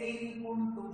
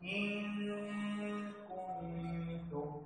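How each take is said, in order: First: The n sound is pronounced clearly. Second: The n sound is hidden and nasalized. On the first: The speaker calls it wrong. "সেটি ভুল হবে তখন ইজহার না উচ্চারণ হয়ে যাবে" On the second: The speaker calls it right. "অস্পষ্ট করে উচ্চারণ করব এবং গুণনা করতে হবে"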